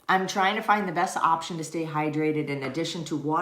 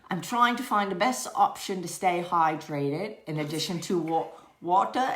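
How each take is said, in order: First: It is read in the reader's ordinary accent. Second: It is read in an attempted Australian accent. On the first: "but for real" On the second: "read it in an Australian accent"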